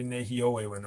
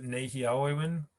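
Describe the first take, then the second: First: Nehiawe win with the middle AW rounded to OH; other regional pronunciation. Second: Nehiawe win with an open AH-W in the middle; own regional pronunciation. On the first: Teacher showing how other places say it, OH in Nehiawe win. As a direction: say Nehiawe win as "nehi-OH-wewin". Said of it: "some places say". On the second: Teacher giving their own regional form, open AW in Nehiawe win. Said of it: "I pronounce it". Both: Shown as a demonstration.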